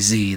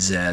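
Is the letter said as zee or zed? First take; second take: zee; zed. First: The letter is said American-style, as zee. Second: The letter is said British-style, as zed.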